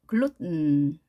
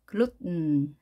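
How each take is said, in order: No difference in how they are said.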